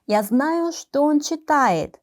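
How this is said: The phrase flows smoothly with что unstressed. The focus is on the fact that he is reading. "이렇게 물 흐르듯이 что 에 강조를 하지 않고 자연스럽게 발음을 했을 때는"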